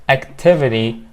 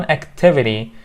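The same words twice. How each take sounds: No difference in how they are said.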